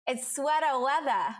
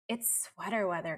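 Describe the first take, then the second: First: It is said in a Maine accent. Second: It is said in her ordinary accent.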